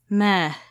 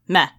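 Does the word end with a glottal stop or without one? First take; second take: without; glottal stop. First: The word ends without a glottal stop. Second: The word ends with a glottal stop.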